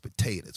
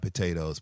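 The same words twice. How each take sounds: First: The word ends with an 'ah' sound. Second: The word ends with an 'oh' sound. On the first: The speaker calls it right. "you got to act like it's an A on the end" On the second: The speaker calls it wrong. "not an O"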